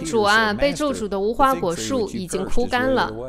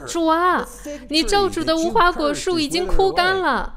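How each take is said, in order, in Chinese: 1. 语调平静，就事论事。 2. 语调震惊，惊奇不已。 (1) "你可以这样读" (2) "他们应该是这样说的，……他们很震惊"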